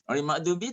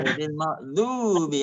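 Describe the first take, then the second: First: The vowel in 'du' is short. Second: The vowel in 'du' is long. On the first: The speaker calls it wrong. "Ghair makdubi tak sah lah" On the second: The speaker calls it right. "Du tu kena panjang"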